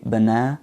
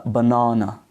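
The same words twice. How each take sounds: First: "banana" as buh-NA-nuh with a flat American A; stressed second syllable, schwas. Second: "banana" the British way, buh-NAH-nuh; British "banana", open ah in the middle; British accent. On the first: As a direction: stress the middle of "banana", weak uh either side. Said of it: "main stress on the second syllable". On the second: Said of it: "the British accent pronounce is as". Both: Shown as a demonstration.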